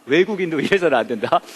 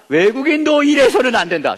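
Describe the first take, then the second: First: Said in the usual way. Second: "외국인도 일해서는 안 된다" declaimed high over the whole phrase; high-pitched stress all through "외국인도 일해서는 안 된다"; emphatic commandment. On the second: Acted. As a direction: proclaim "외국인도 일해서는 안 된다" in a raised, forceful pitch. Declaims commandment, then calls it important.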